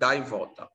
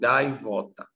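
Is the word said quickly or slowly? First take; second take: quickly; slowly. First: The word is said quickly and forcefully. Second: The word is said slowly, syllables drawn apart.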